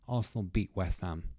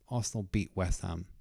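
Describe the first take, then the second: First: The t at the end of beat is silent. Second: The t at the end of beat is silent.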